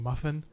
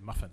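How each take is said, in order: First: Every syllable is pronounced fully. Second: A syllable is swallowed and shortened. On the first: "instead of saying" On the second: "they swallow up syllables"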